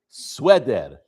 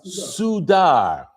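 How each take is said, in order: First: The letter after s is a w sound. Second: The letter after s is a u vowel. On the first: "it's pronounced as a w" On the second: "Don't read the vav as a u"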